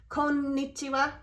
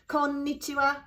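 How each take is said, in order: No difference in how they are said.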